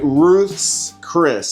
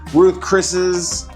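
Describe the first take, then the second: First: An s sound follows Ruth, none follows Chris. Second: An s sound follows Chris, none follows Ruth. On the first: The speaker calls it right. "now I said it right" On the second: The speaker calls it wrong. "I used to call it"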